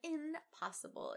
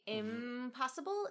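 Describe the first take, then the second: First: The nasal before p is an n. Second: The nasal before p is an m. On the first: "instead of impossible" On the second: "we say impossible"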